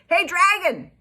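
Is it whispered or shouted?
shouted. It is shouted very loudly.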